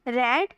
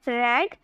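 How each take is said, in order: No difference in how they are said.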